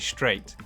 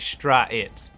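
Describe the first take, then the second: First: The vowel is said as one smooth sound. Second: The vowel is split into two separate sounds. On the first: The speaker calls it right. "you say straight" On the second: The speaker calls it wrong. "you don't say stra-it"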